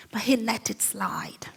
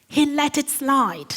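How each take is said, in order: First: Hushed whisper, almost no voice. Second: Said in the usual way. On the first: Shown as a demonstration. Preacher whispers the repeated line to the congregation. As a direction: drop to a breathy whisper for weight.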